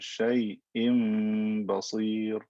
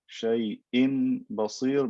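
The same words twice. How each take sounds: First: A nasal m sound comes before the b. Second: A clear n sound comes before the b.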